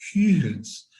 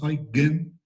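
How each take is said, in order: First: The g is a soft breathy sound. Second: The g is a hard stop sound. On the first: The speaker calls it right. "La G es una G suave" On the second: The speaker calls it wrong. "no es una G U"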